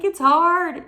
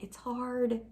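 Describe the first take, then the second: First: High, loud mock whine; whining child. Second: Slightly higher, softer grumble; mild complaining. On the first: Believer whining to God like a child, exaggerated. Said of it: "I'm this child that's, like, whining". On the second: Retold or imitated. Believer tells God it's hard, softly complaining. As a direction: complain gently, a child's small protest. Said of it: "Like, I'm complaining".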